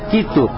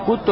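First: The first vowel is i. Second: The first vowel is u. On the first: The speaker calls it right. "а как «китту»" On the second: The speaker calls it wrong. "и не «кутту»"

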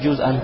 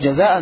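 First: The first vowel is a u sound. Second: The first vowel is an a sound. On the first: The speaker calls it right. "Нам джузан должно быть" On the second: The speaker calls it wrong. "Нам джузан должно быть"

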